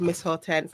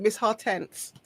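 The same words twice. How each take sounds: First: Said in the usual way. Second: Lightly put-on Grenadian accent, softly said; a touch of Grenadian accent. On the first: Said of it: "say it in a Grenadian accent". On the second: Shown as a demonstration. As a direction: try the name with a Grenadian lilt. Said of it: "need to say it in a Grenadian accent".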